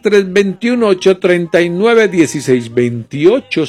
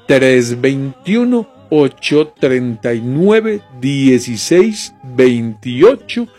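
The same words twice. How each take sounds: First: The number is said at normal speed. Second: The number is said slowly.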